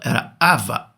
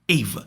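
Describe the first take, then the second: First: The name starts with an 'ah' vowel. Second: The name starts with an 'eh' vowel. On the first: This is how the dubbed version rendered the name. The speaker calls it wrong. "na dublagem falaram Ava" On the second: This is the character's original name. The speaker calls it right. "fala que é Eva o nome dela"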